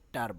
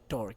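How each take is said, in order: First: The final syllable has an open 'ar' vowel. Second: The final syllable has a rounded 'or' vowel. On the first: The speaker calls it right. "এটাকে টার বলবা" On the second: The speaker calls it wrong. "আমরা আসলে বলতে বলতে অভ্যস্ত হয়ে গেছি টর"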